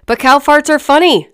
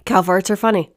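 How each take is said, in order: First: Higher, louder "cow farts are funny", every word punched; emphatic insistence. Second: Said in the usual way. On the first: Real, not acted. Vlogger defending immature humor to viewers, emphatic and loud. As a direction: insist loudly on "funny", pitched up.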